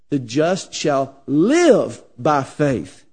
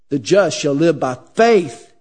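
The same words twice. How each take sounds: First: The stress is on the word live. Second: The stress is on the word faith.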